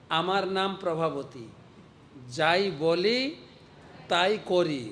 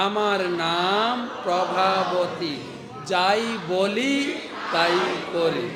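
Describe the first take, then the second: First: Said in the usual way. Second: Slow, louder, drawn-out boast; slow, loud, defiant self-introduction; fiery gopi's boast. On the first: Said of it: "আগেরটা ভুলে যান". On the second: Shown as a demonstration. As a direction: lean into every word like a proud fierce woman. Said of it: "এবার এইটা মুখ".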